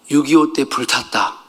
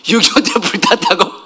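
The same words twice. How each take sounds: First: Said in the usual way. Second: Higher, incredulous question with a laugh; amused, suspicious child questioning the story; disbelieving echo. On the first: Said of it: "되게 당황하시는 거야". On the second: Retold or imitated. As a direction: repeat it as if you don't buy it. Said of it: "거짓말 같은 거야".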